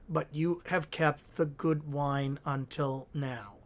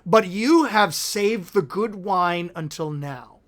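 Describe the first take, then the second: First: It is read in a plain, sober way. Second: It is read merrily, with a slight twang.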